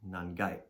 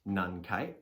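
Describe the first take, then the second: First: The counter begins with a g sound. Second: The counter begins with a k sound. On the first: "can also be gai" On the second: "instead of kai"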